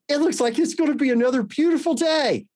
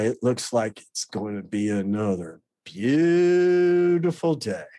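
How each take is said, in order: First: It is said in a bright, cheerful tone. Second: It is said in a sour, sarcastic tone. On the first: A sincere remark about the nice weather. "In just that tone of voice" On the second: A remark heard as mocking or hostile. "my illness would twist it and filter it"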